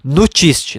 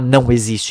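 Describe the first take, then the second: First: The words are squeezed into one short word. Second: Both words are said fully and distinctly. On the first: "Ele fala nutiste" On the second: "ele não fala não existe"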